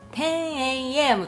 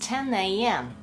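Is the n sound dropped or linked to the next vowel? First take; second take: dropped; linked. First: The n sound is dropped before the vowel. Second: The n sound links into the following vowel. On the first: The speaker calls it wrong. "10am とならないように10 これはN を発音してないことになります" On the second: The speaker calls it right. "鼻から声が出て初めてN の音というふうに認識されます"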